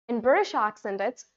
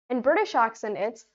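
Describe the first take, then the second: No difference in how they are said.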